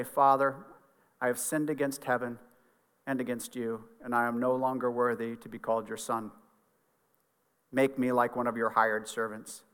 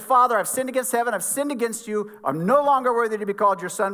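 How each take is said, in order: First: Low, soft, subdued reading of a penitent son; humble confession. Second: Raised, higher-pitched reading of a penitent son; urgent confession. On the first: Son rehearsing his apology to his father, low and humble. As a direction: confess quietly, as one unworthy. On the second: Son confessing to the father who embraced him, higher and pressing. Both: A narrator's reading.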